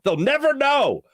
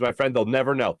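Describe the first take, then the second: First: Put-on high, loud, slow lament of the old days; mock-wistful old man, much higher and louder; mock grumpy old-timer. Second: Said in the usual way. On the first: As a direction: drag it out like a cranky old-timer. Repeats line for effect.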